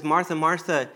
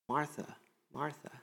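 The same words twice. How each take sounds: First: Said in the usual way. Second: "Martha, Martha" said much softer, almost hushed, rising; soft repeat. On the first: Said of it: "he says". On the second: Shown as a demonstration. Preacher repeating Jesus's call to Martha, soft and inviting. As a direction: murmur "Martha, Martha" as a tender invitation.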